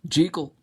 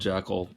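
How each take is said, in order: First: The first vowel is a long E sound. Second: The first vowel is a short E sound. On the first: This is the Scottish pronunciation. "it's a long E. That's the correct Scottish pronunciation" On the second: This is the American pronunciation. "I've been calling him Jekyll the whole time. I'm American"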